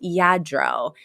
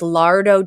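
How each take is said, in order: First: The word begins with a Y sound. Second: The word begins with an L sound. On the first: The speaker calls it right. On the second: The speaker calls it wrong.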